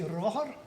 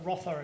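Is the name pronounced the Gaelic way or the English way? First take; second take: Gaelic; English. First: The name is said with Gaelic pronunciation. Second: The name is said with English pronunciation. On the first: "if we were Gaelic speakers, you would say Rother" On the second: "Rother is how I would usually just pronounce it"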